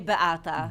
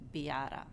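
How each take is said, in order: First: The name is said the Polish way. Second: The name is said the American way.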